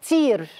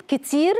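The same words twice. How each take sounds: First: "تير" for kitir, first syllable dropped. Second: Said in the usual way. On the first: Retold or imitated. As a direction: imitate a child cutting the word to "تير". (نطق مشوّه "تير" بحذف الكاف) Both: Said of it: "يقولها تير".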